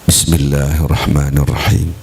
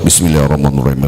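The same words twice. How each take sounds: First: The phrase is recited slowly and calmly. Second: The phrase is recited quickly and hurriedly. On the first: The speaker calls it right. "Anda baca yang benar" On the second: The speaker calls it wrong. "Enggak boleh baca kayak gitu, dilarang"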